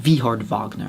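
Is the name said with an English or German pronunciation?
German. The name is said with German pronunciation.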